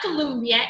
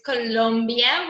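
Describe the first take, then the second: First: The second syllable has a 'u' vowel sound. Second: The second syllable has an 'o' vowel sound. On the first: The speaker calls it wrong. "it's not Colombia" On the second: The speaker calls it right. "it's Colombia with the no"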